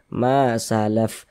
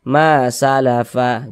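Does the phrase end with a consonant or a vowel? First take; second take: consonant; vowel. First: The phrase ends on the consonant f. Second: The phrase ends on a short vowel a. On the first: The speaker calls it right. "kita baca salaf" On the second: The speaker calls it wrong. "Jangan dibaca ma salafa"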